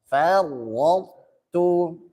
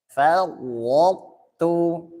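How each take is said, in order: Both takes have the same delivery.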